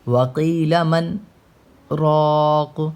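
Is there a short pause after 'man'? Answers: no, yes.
yes. A brief pause comes before the last word. "यहाँ पे भी रुकेंगे लेकिन सांस नहीं टूटेगी।"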